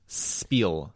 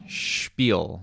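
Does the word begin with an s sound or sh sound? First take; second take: s; sh. First: The word begins with a plain s sound. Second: The word begins with a sh sound. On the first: "Phonetically, it is pronounced spiel" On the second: "they throw in an H in there"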